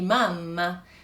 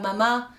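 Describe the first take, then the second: First: The middle m sound is held long and doubled. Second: The middle m sound is short and single. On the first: The speaker calls it right. "on dit mamma" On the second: The speaker calls it wrong. "on ne dit pas mama"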